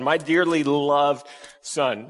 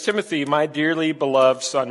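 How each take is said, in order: First: "my dearly loved son" drawn out slowly, leaning on "dearly"; slow, savoured repeat. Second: Said in the usual way. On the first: Shown as a demonstration. Pastor savouring Paul's words to his congregation, slow and tender. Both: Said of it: "That's a kind of beautiful picture".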